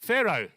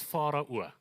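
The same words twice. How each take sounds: First: Pharaoh as a loud FAIR-oh; English pronunciation. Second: Pharaoh as FAH-rah-oo; familiar pronunciation. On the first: Preacher mocking the English way, loud FAIR-oh for Pharaoh. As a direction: punch out Pharaoh with an "air" vowel. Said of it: "Isn't that a nicer way?". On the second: Preacher showing how he knows it, Pharaoh as FAH-rah-oo. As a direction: open "ah" in Pharaoh, rounded ending. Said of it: "I know it as Pharaoh". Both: Shown as a demonstration.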